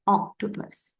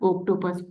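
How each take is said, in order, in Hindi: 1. पहला स्वर एक खुली 'aw' ध्वनि है। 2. पहला स्वर एक गोल 'oh' ध्वनि है। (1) "इट्स ऑक्टोपस" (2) "ओ नहीं कहते ऑक्टोपस। It's not ऑक्टोपस"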